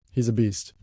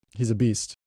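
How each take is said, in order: Both takes have the same delivery.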